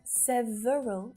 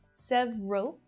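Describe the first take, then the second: First: The word is said with three syllables. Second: The word is said with two syllables. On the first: "again with a little schwa syllable in there" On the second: "it's very natural to just use several instead"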